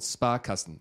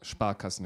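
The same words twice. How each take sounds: First: The word is said with English pronunciation. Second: The word is said with German pronunciation.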